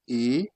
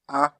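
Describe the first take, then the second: First: The letter is named as in English. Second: The letter is named as in French. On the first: "What you pronounce in English" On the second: "You pronounce it in French"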